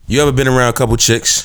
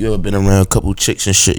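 First: It is said in his normal voice. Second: It is said in a put-on voice.

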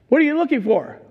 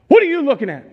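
First: It is said calmly at normal volume. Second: It is shouted suddenly and loudly.

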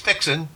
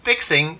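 First: The word ends in -in without the g. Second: The word ends with a full -ing sound.

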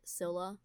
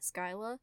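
First: The first syllable rhymes with 'sill'. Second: The first syllable rhymes with 'sky'. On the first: The speaker calls it right. "which is what I believe the correct pronunciation is" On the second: The speaker calls it wrong. "that's a super bad pronunciation"

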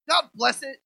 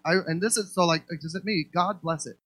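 First: It is said in an angry, cursing tone. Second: It is said in a calm, neutral tone. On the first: It is used as a curse. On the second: It is a plain blessing.

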